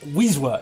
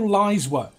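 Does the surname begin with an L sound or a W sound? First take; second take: W sound; L sound. First: The surname begins with a W sound. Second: The surname begins with an L sound. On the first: The speaker calls it right. "It is actually pronounced Wiswa" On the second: The speaker calls it wrong. "It's not pronounced anything like that"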